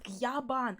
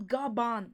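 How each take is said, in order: First: The name begins with a gy sound. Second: The name begins with a plain g sound. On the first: The speaker calls it right. "but Gyaban" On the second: The speaker calls it wrong. "not Gaban"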